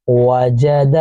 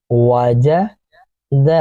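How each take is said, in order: First: Said in the usual way. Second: Wajid stretched very slowly, sound by sound. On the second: Shown as a demonstration. Teacher demonstrating Wajid for pupils, very slowly stretched. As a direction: drag Wajid out syllable by syllable. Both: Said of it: "اسی طرح سے پھر".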